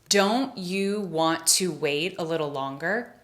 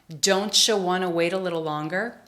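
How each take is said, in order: First: 'Don't you' is said as two separate words. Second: 'Don't you' blends into 'don't-cha' with a ch sound.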